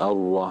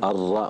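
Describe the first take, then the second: First: The vowel after r sounds rounded, like u. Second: The vowel after r is an open a. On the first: The speaker calls it wrong. "kayak ada dhammah" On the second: The speaker calls it right. "ar-ra bukan"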